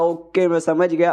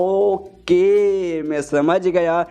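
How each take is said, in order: First: Said in the usual way. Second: Drawn-out, dragged-out words in an odd put-on voice; slow dismissive okay. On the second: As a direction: stretch it lazily to brush her off. Jang brushing off Miss Biru.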